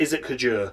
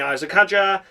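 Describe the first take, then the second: First: The name is pronounced the French way. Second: The name is pronounced the English way. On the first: "If you're French, I get called" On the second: "if you're English, you can call me"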